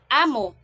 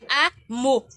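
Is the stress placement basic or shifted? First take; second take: basic; shifted. First: The word carries its basic stress placement. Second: The word carries a shifted stress placement. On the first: It means master or leader. "without original accent" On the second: It means that is it. "kung naa siya different accent"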